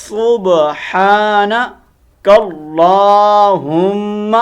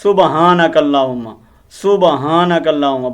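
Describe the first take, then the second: First: سبحانک with a heavy throat ha, اللہم drawn out very slowly; correct pronunciation. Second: سبحانک said quickly as subahanak, with a light ha and an extra vowel; wrong pronunciation. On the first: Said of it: "تو ہم نے اس کو حلق سے نکالنا ہے۔". (سبحانک اللہم کو حلق سے ہا نکال کر بہت آہستہ پڑھیں) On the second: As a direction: demonstrate the mistaken سبحانک, quick and ordinary. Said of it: "اب اس کے اندر غلطی کیا کرتے ہیں؟". (سبحانک کو غلط انداز میں، ہلکی ہا کے ساتھ جلدی پڑھیں) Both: Shown as a demonstration.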